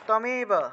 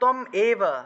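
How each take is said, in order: First: It is said as one joined word. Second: It is said as two separate words.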